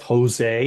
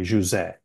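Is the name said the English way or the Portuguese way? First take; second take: English; Portuguese. First: The name is said with an English pronunciation. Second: The name is said with a Portuguese pronunciation. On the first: This is the everyday form the speaker goes by. "you don't actually pronounce it as Jose, even though that's fine. That's what I go by" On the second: This is the original form of the name. "in Portuguese, it's actually José"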